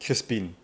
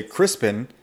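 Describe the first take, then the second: First: Crispin echoed softly, ending in a long ee; German pronunciation. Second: Crispin with a short i in both syllables; English pronunciation. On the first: Coach repeating the host's German name, Crispin with German vowels. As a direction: say Crispin as Germans do, last syllable like "peen". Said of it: "they would probably say Crispin". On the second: Coach fitting the name to English ears, Crispin said the English way. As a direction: say Crispin in plain English, ending like "pin". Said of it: "fit into the English repertoire". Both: Shown as a demonstration.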